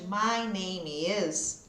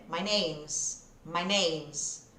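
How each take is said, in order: First: "My name is" slow with every word apart; slow, separated words. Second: "My name's" glided together; relaxed spoken English; contracted. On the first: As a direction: drill it word by word, slowly. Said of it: "ao invés de". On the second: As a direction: run "My name's" into one chunk. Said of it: "Eu vou grudando os sons". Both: Shown as a demonstration.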